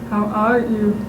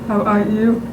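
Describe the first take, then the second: No difference in how they are said.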